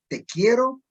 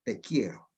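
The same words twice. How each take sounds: First: "Te" pitched high and stressed as té, meaning tea, in "Te quiero". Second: Soft and low, "Te quiero" as a quiet declaration of love; tender love line. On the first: Teacher showing accented té in "Te quiero", high stress on "Te". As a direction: lift and hit "Te" so it means tea in "Te quiero". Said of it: "si yo le pongo tilde, le digo". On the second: Teacher showing "Te quiero" meaning love, soft and tender. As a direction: breathe "Te quiero" gently, as if to someone dear. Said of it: "si yo le digo a usted". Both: Shown as a demonstration.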